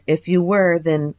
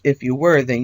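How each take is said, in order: First: It is said in the speaker's normal voice. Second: It is said in an imitation of another voice. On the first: The speaker's own message is being read. The speaker calls it wrong. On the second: The other person's message is being read. The speaker calls it right.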